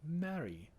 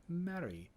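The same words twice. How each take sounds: Both takes have the same delivery.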